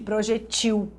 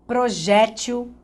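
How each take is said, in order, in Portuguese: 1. A sílaba tônica fica na última. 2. A sílaba tônica fica na penúltima. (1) "A sílaba tônica ela pode se posicionar na penúltima ou na última" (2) "A sílaba tônica ela pode se posicionar na penúltima ou na última"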